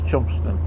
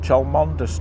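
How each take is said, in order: First: The name is shortened to two syllables. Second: Every written syllable of the name is pronounced. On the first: The speaker calls it right. "it's Chumston" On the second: The speaker calls it wrong. "that's how it's spelt"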